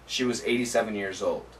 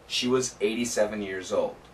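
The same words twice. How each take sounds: First: The words are spoken at a faster pace. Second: The words are spoken at a slow pace. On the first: "Let's try it again, a little bit faster" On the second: "So let's say it slowly"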